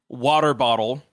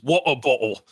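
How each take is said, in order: First: It is said in an American accent. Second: It is said in a Cockney accent. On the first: "I know I'm pronouncing it like an American" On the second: "that's just Cockney though"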